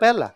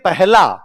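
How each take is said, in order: First: The h sound in the middle is swallowed. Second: The h sound in the middle is clearly pronounced. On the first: This is how people from the speaker's region say it. "अपने है पूरा बोलते ही नहीं" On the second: This is the standard way it should be said. "होना चाहिए"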